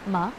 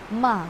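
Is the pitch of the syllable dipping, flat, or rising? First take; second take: rising; dipping. First: The pitch rises like a question. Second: The pitch dips down, then rises. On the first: "second tone going up... para siyang medyo pa-question" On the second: "dipping and rising tone... pababa, and then pataas"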